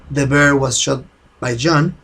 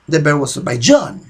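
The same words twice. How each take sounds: First: The word John gets no special emphasis. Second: The word John is strongly emphasized.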